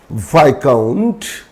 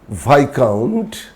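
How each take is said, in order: First: The s sound is left silent. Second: The same.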